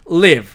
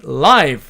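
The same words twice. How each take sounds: First: Live를 '리브'로 짧게; live의 i를 짧은 이로 발음하기; verb live. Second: Live를 '라이브'로 길게; live의 i를 아이로 발음하기; adjective live. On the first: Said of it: "이렇게 발음한다는 뜻입니다". (동사 live, 리브) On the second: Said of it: "이렇게 발음을 하고". (형용사 live, 라이브) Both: Shown as a demonstration.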